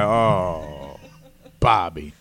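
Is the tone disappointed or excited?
disappointed. It sounds disappointed and let down.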